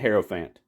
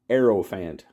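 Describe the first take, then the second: First: The word begins with an audible H sound. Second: The word begins with a vowel, no H.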